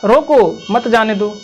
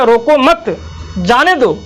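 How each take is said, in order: First: The pause comes after 'roko'. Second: The pause comes after 'mat'.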